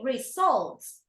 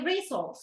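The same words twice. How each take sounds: First: The stress is on the second syllable. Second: The stress is on the first syllable. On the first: The speaker calls it right. "Stress on the second syllable" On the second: The speaker calls it wrong. "You don't say results"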